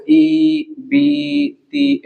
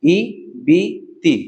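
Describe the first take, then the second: First: ई, बी, ती each stretched long, pitched up; wrong-way demo, long held ई, बी, ती; drawn-out syllables. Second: ई, बी, ती each said short; short separate ई, बी, ती; quick short syllables. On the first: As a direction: drag out the vowels of ई, बी, ती. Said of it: "ऐसे हम कोई भी हरफ नहीं खींचेंगे". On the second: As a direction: say ई, बी, ती quickly, without stretching. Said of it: "जल्दी से पढ़ेंगे". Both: Shown as a demonstration.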